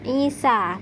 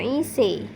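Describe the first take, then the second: First: The final vowel is a clear open a. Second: The final vowel is tilted toward e. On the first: The speaker calls it right. "tetap dibaca fathah" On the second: The speaker calls it wrong.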